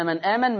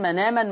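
First: Said in the usual way. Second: "من آمن" joined as manaaman; nun glides into long "aa" in "من آمن"; naql with long vowel. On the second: Shown as a demonstration. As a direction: drop the hamza in "من آمن". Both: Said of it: "بدل مغير بالنقل".

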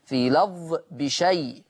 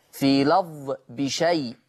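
The two takes are said the same way.

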